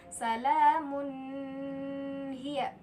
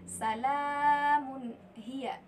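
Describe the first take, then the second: First: The n sound is blended into the next sound. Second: The n sound is pronounced clearly and separately. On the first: The speaker calls it wrong. "jangan dibaca salamun hiya" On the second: The speaker calls it right. "tapi yang benar adalah salamun hiya"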